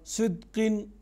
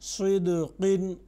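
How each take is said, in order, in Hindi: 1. q ध्वनि सपाट रुकती है, कोई गूंज नहीं। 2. q ध्वनि गूंज के साथ वापस उछलती है। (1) "ये दूसरी आवाज़ है। ये जो दूसरी आवाज़ है इस तरह से नहीं पढ़ेंगे" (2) "जिसमें आवाज़ टकरा कर वापस आती है"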